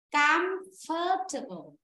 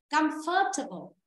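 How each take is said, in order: First: Slow, syllable by syllable, comfortable; teacher models comfortable slowly for the class, each syllable drawn out; slow demo. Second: Said in the usual way. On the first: Shown as a demonstration. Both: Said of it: "Và đọc này".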